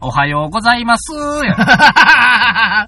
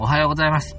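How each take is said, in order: First: It is said with a Kansai intonation. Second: It is said with a standard Tokyo intonation.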